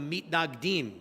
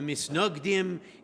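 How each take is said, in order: First: It has a t sound and an a vowel. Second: It has an s sound and an o vowel. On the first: "In modern Hebrew, we call them the mitnagdim" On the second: "In European pronunciation of Hebrew, we call them the misnogdim"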